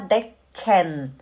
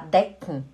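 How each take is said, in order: First: A full vowel is heard before the final n. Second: The k runs straight into the final n. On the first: The speaker calls it wrong. "O alemão não fala decken" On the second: The speaker calls it right. "ele fala decken, decken. É o k-n"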